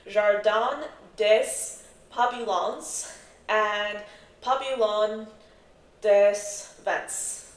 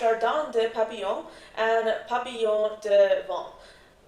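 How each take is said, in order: First: The names are said with an American accent. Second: The names are said with a French-style accent. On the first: The speaker calls it right. "I'm going to say this in an American accent" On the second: The speaker calls it wrong. "my French atrociousness"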